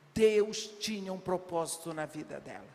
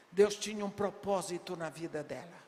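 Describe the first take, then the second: No difference in how they are said.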